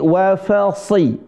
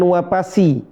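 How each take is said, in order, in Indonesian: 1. Konsonannya diucapkan sebagai bunyi f. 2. Konsonannya diucapkan sebagai bunyi p. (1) "tapi wa fasi" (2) "bukan wapasi"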